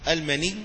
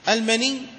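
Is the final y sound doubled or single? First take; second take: single; doubled. First: The n has no vowel; the y is single. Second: The final y sound is doubled. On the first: "على لغة قليلة، بالتسكين" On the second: "المني يصح بالتجديد"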